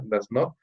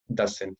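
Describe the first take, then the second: First: "Does not" said as two separate words; teacher spelling out "Does not" word by word; full form. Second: "doesn't" run together as one word; teacher saying the short form "doesn't" in one go; contraction. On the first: Teacher showing students the full form "Does not", both words separate. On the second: Teacher showing students the contraction "doesn't", said as one word. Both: Shown as a demonstration. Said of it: "Fíjense, ¿ya?".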